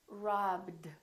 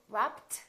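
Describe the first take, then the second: First: The ending is a short d sound. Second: The ending is a short t sound. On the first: The speaker calls it right. "So this one becomes a D" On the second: The speaker calls it wrong. "do we say robbed? No, this one is not a T"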